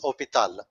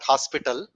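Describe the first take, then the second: First: The h is silent, with no s sound. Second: It starts with an h and has an s sound. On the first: The speaker calls it right. "it is hopital. H, you keep H as silent" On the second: The speaker calls it wrong. "It's not hospital"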